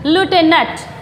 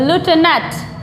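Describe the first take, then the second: Both takes have the same delivery.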